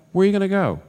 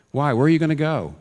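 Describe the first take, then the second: First: Much higher, louder urgent plea; climactic plea. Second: Raised, louder pleading question. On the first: Preacher repeating the question to his flock, climbing urgent plea. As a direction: push it to the peak of the appeal. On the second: Preacher pressing his listeners, raised pleading question. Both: Real, not acted.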